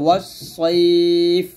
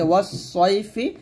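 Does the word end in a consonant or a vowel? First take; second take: consonant; vowel. First: The word ends on a bare consonant. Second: The word ends with a short vowel. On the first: The reader stops on this word. "থামলে হবে" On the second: The reader continues without stopping. "এখানে আছে"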